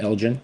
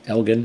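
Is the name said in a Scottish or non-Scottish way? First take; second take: non-Scottish; Scottish. First: It is said the non-Scottish way. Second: It is said the Scottish way. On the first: The speaker calls it wrong. "not Elgin" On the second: The speaker calls it right. "as much like the, uh, the Scottish folk do"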